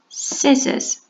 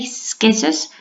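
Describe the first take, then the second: First: The word begins with a plain s sound. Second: The word begins with a hard k sound. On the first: The speaker calls it right. "we say scissors" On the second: The speaker calls it wrong. "We don't say skizzers"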